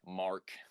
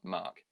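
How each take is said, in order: First: It is said in an American accent. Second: It is said in a New Zealand accent. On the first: "you guys would be like, Mark" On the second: "we'd probably be like, oh, Mark"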